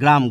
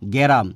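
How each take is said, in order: First: The opening consonants are said together as a cluster. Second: A vowel is inserted between the opening consonants.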